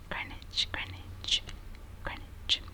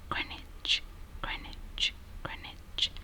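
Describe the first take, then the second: The two takes are said the same way.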